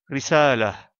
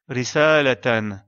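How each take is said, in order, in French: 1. Le mot se termine doucement par un h, sans voyelle. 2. Le mot se termine par un t suivi d'une voyelle. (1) "comme on fait la pause, on la prononce comme la lettre ha et on délaisse la voyelle" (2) "on prononce la lettre ta marbuta comme la lettre ta avec les voyelles"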